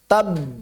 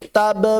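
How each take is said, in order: First: The final b is held closed, not released. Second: The final b is released with an audible burst. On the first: The speaker calls it right. "Terputus itu maksudnya enggak ngalir di makhraj, tertahan di makhraj" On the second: The speaker calls it wrong. "Tapi jangan dilepas. Tabba enggak"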